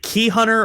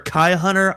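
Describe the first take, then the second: First: The first syllable has an 'ee' vowel. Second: The first syllable has an 'eye' vowel. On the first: "Is it Key Hunter" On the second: "or Kai Hunter?"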